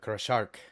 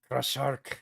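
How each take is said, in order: First: It is said in a plain English accent. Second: It is said in a French accent. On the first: The speaker calls it wrong. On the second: The speaker calls it right.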